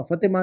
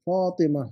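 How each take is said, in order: First: फतिमा with a short clipped first a, as the mistake; wrong short vowel. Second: फातिमा with a long drawn fa; correct long vowel. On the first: Teacher showing a student her misspelling, फतिमा with a short fa. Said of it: "फतिमा नहीं ना". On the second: Teacher giving the right form after the mistake, फातिमा with a long fa. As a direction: stretch the fa in फातिमा. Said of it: "फा के बाद अलिफ है ना". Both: Shown as a demonstration.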